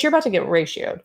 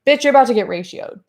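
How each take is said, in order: First: Said in the usual way. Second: Faster, louder sassy "Bitch, you're about to get ratioed"; punchy taunting repeat. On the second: Acted. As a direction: hit it with quick, loud sass.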